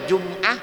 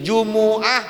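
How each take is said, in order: First: The word has two syllables, jum-ah. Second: The word has three syllables, ju-mu-ah. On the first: "boleh dibaca jum'ah" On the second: "boleh dibaca jumu'ah"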